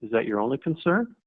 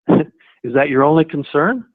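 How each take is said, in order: First: Soft probing question. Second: "Is that your only concern?" with "only" leaned on and a rising tune; stress on only. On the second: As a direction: press gently on "only", then lift at the end. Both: Shown as a demonstration. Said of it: "follow that up with".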